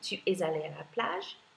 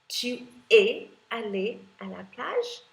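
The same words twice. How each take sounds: First: Said faster, with 'es' linked into 'allé'. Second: Said slower, with 'es' and 'allé' kept apart.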